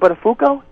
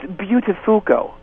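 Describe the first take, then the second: First: The name is said the usual, plain way. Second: The start of the name sounds like 'beautiful'. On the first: This is the old pronunciation of the name. The speaker calls it wrong. "It's no longer Buttafuoco" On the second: This is the new pronunciation of the name. The speaker calls it right. "it's kind of got the hint of the word beautiful in it"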